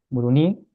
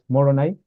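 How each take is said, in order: First: The vowels sound like u, stress on final i. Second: The first two vowels sound like o. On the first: This is the local pronunciation. "es con U y con un acento en la I al final" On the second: This is the English pronunciation. "En inglés es Moroni"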